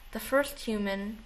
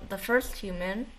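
Both takes have the same delivery.

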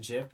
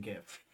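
First: "jif" opening on a j sound; soft-g pronunciation. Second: "gif" opening on a hard g, softly; hard-g pronunciation. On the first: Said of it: "So you said "jif"?". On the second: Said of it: "No, I said "gif". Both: Shown as a demonstration.

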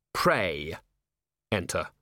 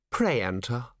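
First: Low, separated words with a pause; sinister echo, as if 'prey'; ominous. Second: Precise, formal invitation; icily polite welcome; chilly courtesy. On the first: Commander rehears the invitation as a threat, low and ominous. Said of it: "the words respelled themselves in Vimes's hindbrain as". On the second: Ancient herald invites the commander in, coldly courteous. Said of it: "It was chilly, clipping every syllable with precision". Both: A narrator's reading.

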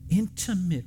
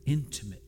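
First: "intimate" punched at a higher pitch, drawn out; stress on intimate. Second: Said in the usual way. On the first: Shown as a demonstration. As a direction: lean hard on the word "intimate". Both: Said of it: "I wanna stress the word".

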